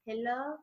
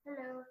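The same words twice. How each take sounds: First: Awkward hello. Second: Soft, mumbled imitation of a stiff hello; awkward hello. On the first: Retold or imitated. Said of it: "he's just like". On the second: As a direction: mimic the actor's odd, quiet hello. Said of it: "the way he says hello".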